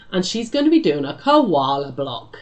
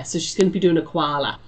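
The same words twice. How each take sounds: First: Said in the usual way. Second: A self-confessed terrible try at an Australian accent; lightly put-on Australian vowels on koala; hint of an Aussie accent, badly done. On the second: Shown as a demonstration. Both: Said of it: "was my best Aussie accent".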